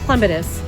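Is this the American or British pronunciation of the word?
British. It is said the British way.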